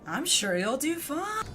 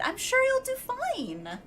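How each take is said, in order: First: It is said in a sarcastic tone. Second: It is said in a peppy, cheerful tone.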